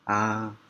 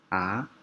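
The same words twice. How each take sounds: First: It is said with the first tone. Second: It is said with the second tone. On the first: "Yang pertama A" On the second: "Yang kedua A"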